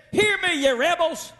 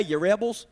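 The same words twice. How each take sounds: First: Higher, heated rebuke; angry Moses. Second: Friendly greeting. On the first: Retold or imitated. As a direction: call them rebels in anger. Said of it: "He is still angry". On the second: Shown as a demonstration. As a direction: say it like a chummy greeting. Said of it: "not just friendly talk".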